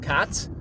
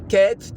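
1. Samogłoska to otwarty, a-podobny dźwięk. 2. Samogłoska to bliższy, e-podobny dźwięk. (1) "tylko cat" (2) "nie cat"

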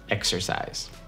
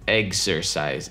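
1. Первый слог звучит как 'eks'. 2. Первый слог звучит как 'egz'. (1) "тут нету г, тут к" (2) "Они в это слово добавляют яйца, eggs"

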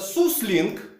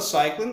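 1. Первый слог звучит как 'soo'. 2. Первый слог звучит как 'sigh'. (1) "многие говорят, что это суслинг" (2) "Это просто cycling"

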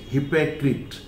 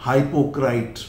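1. अंतिम अक्षर "krit" जैसा सुनाई देता है। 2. अंतिम अक्षर "krait" जैसा सुनाई देता है। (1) "it is hypocrite" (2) "some people pronounce it हाइपोक्राइट"

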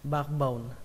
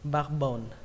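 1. Âm k ở giữa được lướt qua. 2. Âm k ở giữa được lướt qua.

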